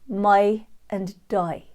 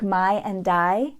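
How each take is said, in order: First: The long i starts closer, like short u. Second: The long i starts open, American-style. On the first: "start the long I diphthong with more of that short U" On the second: "for words like my and die"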